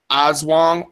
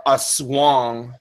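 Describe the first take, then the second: First: "Oswang" said slowly, opening on an "oz" sound; Oswang pronunciation. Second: "Aswang" drawn out as a-SWONG; Aswang pronunciation. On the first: Host showing listeners one pronunciation of the creature's name, "Oswang" with an "oz" start. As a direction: say "Oswang" as OZ-wong. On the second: Host showing listeners the other pronunciation of the creature's name, "Aswang" as a-SWONG. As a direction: say "Aswang" slowly, weight on "swang". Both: Shown as a demonstration. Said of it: "the pronunciation of it in spelling".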